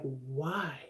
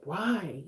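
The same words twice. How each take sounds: First: "Why?" said lower and softer, drawn out in dread; whiny dread. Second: Said in the usual way. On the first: Retold or imitated. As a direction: groan "Why?" like you don't want Monday. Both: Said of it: "you just be like".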